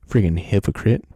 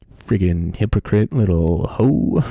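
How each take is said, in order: First: Loud, lower, spat-out "Freaking hypocrite"; insult. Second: Louder and slower, each word hammered; escalated insult. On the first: Vlogger insulting Gi-hoon as a hypocrite, loud angry jab. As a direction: spit the insult at him. Name-calling the character. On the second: Vlogger topping the insult at Gi-hoon, slow loud hammered jab. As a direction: drag it out, even louder. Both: Real, not acted.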